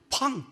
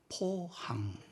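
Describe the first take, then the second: First: It is said loudly and sharply. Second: It is said softly and calmly.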